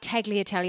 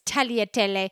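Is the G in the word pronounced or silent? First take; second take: pronounced; silent. First: The G sound is pronounced in the word. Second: The G sound is left silent in the word. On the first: The speaker calls it wrong. "it's not tagliatelle" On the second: The speaker calls it right. "It's a silent G"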